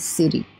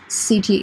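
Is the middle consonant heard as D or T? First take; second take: D; T. First: The middle consonant sounds like a soft D. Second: The middle consonant is a clear T sound. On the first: "but the American people would say city" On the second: "city is correct, of course"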